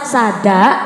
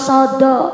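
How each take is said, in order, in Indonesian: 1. Kedua vokal adalah bunyi 'a' yang terbuka. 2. Kedua vokal adalah bunyi 'o' yang bulat. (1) "Cara Cilacap sada" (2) "cara wong wetan Jawa Timur sodo"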